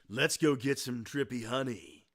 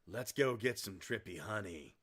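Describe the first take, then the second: First: It is said in a Duke Nukem voice. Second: It is said in a natural voice.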